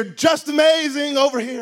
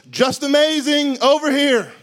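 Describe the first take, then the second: First: Loud call across the water; guide calling out. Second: Loud, drawn-out call across the water; guide calling out. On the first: Snorkel guide calling tourists over, loud. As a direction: hail the swimmers. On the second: Snorkel guide calling tourists over, loud and slow. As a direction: hail the swimmers from far off. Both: Retold or imitated.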